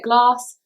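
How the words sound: It is said in a Southern English accent. "South, we say it glass"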